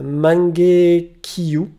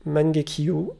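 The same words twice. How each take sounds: First: Mangekyou drawn out very slowly as man-ge-kiyu, syllable by syllable; Japanese name attempt. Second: Mangekyou said at normal speed as man-ge-kiu, softer, with a rising end; a quick, softer retry of Mangekyou; quick repeat of the name. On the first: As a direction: spell out Mangekyou slowly in a clumsy Japanese accent. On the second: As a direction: toss off Mangekyou again, quietly, ending on a rise. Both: Real, not acted. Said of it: "Désolé pour un accent, euh, japonais complètement pété en l'air".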